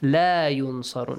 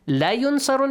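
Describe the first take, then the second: First: The vowel in la is long. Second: The vowel in la is short. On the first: They will not be helped. The speaker calls it right. "Make sure it's a long vowel" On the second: They will surely be helped. The speaker calls it wrong. "if you say, it changes the meaning"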